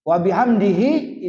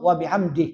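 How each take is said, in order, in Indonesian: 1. Kata terakhir tetap diucapkan dengan suku kata akhirnya lengkap. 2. Kata terakhir dipotong pendek dengan berhenti. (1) "itu barisan utuh" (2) "kalau nak diwakafkan berhenti di situ"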